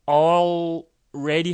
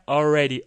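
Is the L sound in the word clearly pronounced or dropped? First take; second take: pronounced; dropped. First: The L sound is clearly pronounced. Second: The L sound is dropped, like a vowel. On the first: "already 할 시간이 없어서" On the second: "그냥 already 이렇게 많이 해요"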